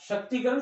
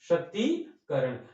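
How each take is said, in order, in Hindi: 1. 'shakt' के बाद वाला स्वर छोटा है। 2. 'shakt' के बाद वाला स्वर लंबा है। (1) "ये गलत है" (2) "शक्तिकरण का शुद्ध रूप क्या है?"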